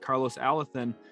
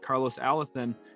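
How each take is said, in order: First: The name is said with Spanish pronunciation. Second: The name is said with Spanish pronunciation.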